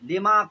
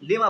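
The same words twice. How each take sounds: First: The final vowel is held long. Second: The final vowel is cut short. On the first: "अलिफ को हस्फ कर दिया जाता है" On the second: "लिमा को लिमा बोलते हैं"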